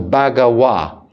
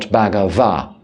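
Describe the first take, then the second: First: The consonant before the last vowel sounds like W. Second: The consonant before the last vowel sounds like V. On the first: "we pronounce the letter V, the letter V as a W"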